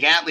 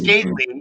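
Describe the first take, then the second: First: The name is run together, not fully enunciated. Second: The name is carefully enunciated. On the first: Someone else says it this way. The speaker calls it wrong. "I've had people say Gatley" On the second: This is the name's actual form. The speaker calls it right. "well, it's Gately"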